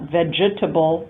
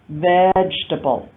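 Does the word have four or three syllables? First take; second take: four; three. First: The word is said with four syllables. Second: The word is said with three syllables. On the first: The speaker calls it wrong. "not vegetable" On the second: The speaker calls it right. "but vegetable. So three syllables"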